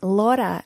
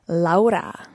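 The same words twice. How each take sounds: First: The name is said with an English pronunciation. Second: The name is said with a Spanish pronunciation. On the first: This is how she wants to be called. The speaker calls it right. "my name is Laura" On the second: This is how she does not want to be called. The speaker calls it wrong. "not Laura"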